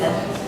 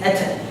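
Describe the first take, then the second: First: The final consonant is released with a soft breath. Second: The final consonant is released with a bouncing echo. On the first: "Whisper is" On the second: "So bounce is"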